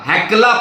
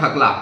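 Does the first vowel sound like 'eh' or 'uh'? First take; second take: eh; uh. First: The first vowel is an open 'eh' sound. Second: The first vowel is a short 'uh' sound. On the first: The speaker calls it right. "हैकला पहाड़" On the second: The speaker calls it wrong. "It is not हकला"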